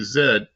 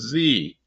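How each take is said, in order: First: The letter is pronounced 'zed'. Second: The letter is pronounced 'zee'. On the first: This is how the other English-speaking countries say it. "All the rest of the English speaking countries say Z" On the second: This is how only one English-speaking country says it. "This is the only English speaking country that says Z"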